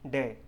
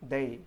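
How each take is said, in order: First: The first sound is not a 'th' fricative. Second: The first sound is a voiced 'th' fricative. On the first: The speaker calls it wrong. "Some non-native English speaker uh, makes it wrongly" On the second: The speaker calls it right. "So what is correct pronunciation?"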